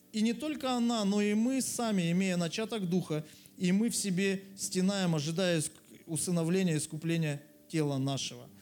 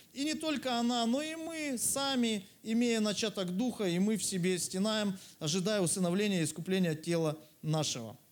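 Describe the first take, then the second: No difference in how they are said.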